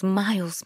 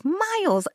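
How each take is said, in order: First: Said in the usual way. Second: "miles" leapt up high and stretched; "miles" stressed high, emphasising the distance; emphatic miles. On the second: Real, not acted. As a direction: stress "miles" with a big upward leap.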